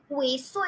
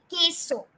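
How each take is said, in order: First: Queso as KWAY-so; mistaken pronunciation. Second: Queso as KEH-so, no w; correct pronunciation. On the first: Teacher showing what it won't be, queso said KWAY-so. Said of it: "It's not gonna be". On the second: Teacher correcting to the Spanish word, queso said KEH-so. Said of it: "it's gonna be". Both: Shown as a demonstration.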